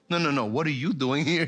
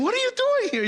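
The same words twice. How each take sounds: First: Said in the usual way. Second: Very high, surprised question; as if shocked to see the teacher there; astonished students. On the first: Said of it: "Y yo digo". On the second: Retold or imitated. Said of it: "Y me dicen".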